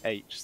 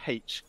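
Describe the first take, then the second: First: The letter name begins with a vowel sound. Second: The letter name begins with an h sound. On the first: This is how Americans say it. "the Americans pronounce it H" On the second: This is the speaker's own way of saying it. "I pronounce it H"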